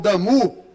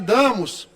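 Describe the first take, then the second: First: The name is said the French way. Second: The name is said the Portuguese way.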